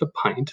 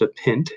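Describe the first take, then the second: First: The word pint rhymes with line. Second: The word pint rhymes with mint. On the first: The speaker calls it right. "it is pronounced a pint" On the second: The speaker calls it wrong. "this is not pronounced a pint"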